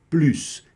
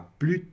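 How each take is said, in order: First: The final S sound is pronounced. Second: The final S sound is silent. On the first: "Em muitos momentos nós vamos pronunciar sim o S" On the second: "Nessa expressão aqui a gente não pronuncia o S"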